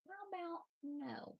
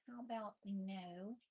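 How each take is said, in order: First: High sing-song "How about no?" to the kitten; high playful scolding of kitten; sing-song pet talk. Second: Said in the usual way. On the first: Real, not acted. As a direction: coo the refusal up high. Telling kitten off, pitched up.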